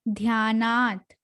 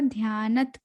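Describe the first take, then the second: First: The second syllable has a long aa vowel. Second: The second syllable has a short vowel. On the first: The speaker calls it right. "यहाँ पर न के ऊपर बड़े आ की मात्रा है ना" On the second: The speaker calls it wrong. "फिर से यही मिस्टेक हुआ"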